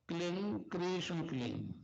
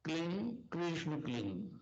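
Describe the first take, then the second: The two takes are said the same way.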